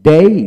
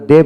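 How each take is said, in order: First: ডেই as a full diphthong, gliding into i; ডেই with a glide. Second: ডে with a plain, short vowel, no glide; everyday ডে. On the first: Teacher corrects the common ডে, gliding ডেই. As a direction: draw ডেই out to its closing i sound. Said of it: "ডে বলে উচ্চারণ তো হবে". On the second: Teacher quotes how we usually say it, short ডে. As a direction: say ডে without an i-glide at the end. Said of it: "আমরা ডে বলি". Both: Shown as a demonstration.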